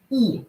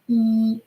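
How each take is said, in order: First: The pitch falls sharply from high. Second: The pitch stays high and level. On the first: "Falling tone" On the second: "first with a flat tone"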